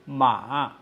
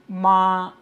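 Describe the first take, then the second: First: The pitch dips down, then rises again. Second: The pitch stays high and level throughout. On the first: Horse. "It is a falling, then rising tone" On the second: Mother. "It is a high flat sustained tone"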